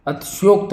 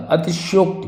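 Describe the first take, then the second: First: अतिशयोक्त as "atsyokt", no final i; mispronounced अतिशयोक्त. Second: Said in the usual way. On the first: Shown as a demonstration. Teacher showing the wrong form, अतिशयोक्त ending on t. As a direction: swallow the first i, end on t. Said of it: "अतिशयोक्त नहीं होता". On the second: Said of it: "अतिशयोक्ति होती है".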